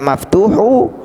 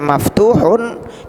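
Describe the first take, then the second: First: The word ends on a plain u vowel. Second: The word ends with an added n sound. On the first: The speaker calls it wrong. "tidak maftuhu" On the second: The speaker calls it right. "dia dibaca maftuhun"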